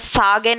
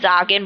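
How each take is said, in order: First: The word begins with an s sound. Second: The word begins with a z sound. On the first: The speaker calls it wrong. "मैं सागेन नहीं बोल रही" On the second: The speaker calls it right. "मैं जागेन बोल रही हूँ"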